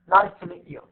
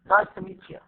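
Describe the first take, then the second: First: The words are reduced and run together. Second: The words are reduced and run together.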